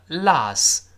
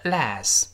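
First: "Las" said as "lahs"; open ah vowel. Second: "Las" said as "lass", vowel of "cat"; front a vowel. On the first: Teacher comparing two readings, "Las" with ah. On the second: Teacher comparing two readings, "Las" as "lass". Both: Shown as a demonstration. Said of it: "发啊发哎都对".

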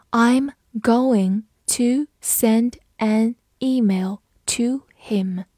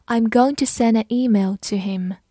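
First: Very slow, separated words; slow read-through. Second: Said in the usual way. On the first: Shown as a demonstration. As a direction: read it one word at a time for learners. Teacher's slow read, then normal. (一字一顿地慢读)

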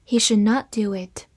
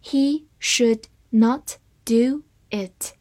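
First: Said in the usual way. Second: Slow, one word at a time; deliberate, spaced-out model reading; slow read-through. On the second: Shown as a demonstration. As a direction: read it slowly with clear gaps between words. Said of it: "好，慢读一遍".

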